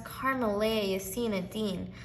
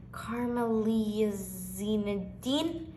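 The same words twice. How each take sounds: First: "Carmelia Yasina Dean" said fluently and surely; "Carmelia Yasina Dean" in one confident run; correct pronunciation. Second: "Carmelia Zinedine" sounded out slowly, unsure; slow, tentative attempt at "Carmelia Zinedine"; hesitant mispronunciation. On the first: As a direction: say "Carmelia Yasina Dean" smoothly, as its owner does. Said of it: "My name is pronounced". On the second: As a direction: stumble carefully through "Carmelia Zinedine" with a questioning end. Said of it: "trying to figure out a tricky puzzle". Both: A narrator's reading.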